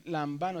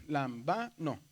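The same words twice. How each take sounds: First: Said in the usual way. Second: "Lambano" broken into syllables, weight on ba; stress on the penultimate. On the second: Shown as a demonstration. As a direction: pull "Lambano" apart slowly as lam, BA, no. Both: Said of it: "está en la penúltima también".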